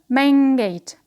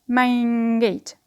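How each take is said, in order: First: The first word ends with an ng sound. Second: The first word ends with an ng sound.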